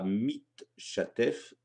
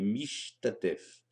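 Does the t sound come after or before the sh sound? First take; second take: before; after. First: The t sound comes before the sh sound. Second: The t sound comes after the sh sound. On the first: The speaker calls it wrong. "On ne dira pas" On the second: The speaker calls it right.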